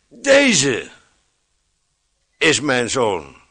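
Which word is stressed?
deze. The stress falls on the first word. This one and not another is meant. The speaker calls it right. "Ik prefereer de klemtoon in die zin anders te leggen. ... En niet een ander, zo lees ik hem"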